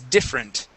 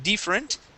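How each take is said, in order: First: The first vowel is a short i. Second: The first vowel sounds like an e. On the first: The speaker calls it right. "a short I sound with the word different" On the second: The speaker calls it wrong. "using an, an E, a Portuguese E sound"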